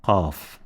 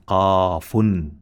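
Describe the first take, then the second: First: "qaf" stopped on f, no "un", lower and softer; silent ending. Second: "qafun" with long a and the full "un" ending sounded; spelled out fully. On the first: Teacher showing stopping, "qaf" with the ending silenced. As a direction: end "qaf" on a bare f. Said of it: "apply silence to it". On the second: Teacher spelling the letter's name, "qafun" said in full. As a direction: draw out "qafun" to its last sound. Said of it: "spelled out like this". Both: Shown as a demonstration.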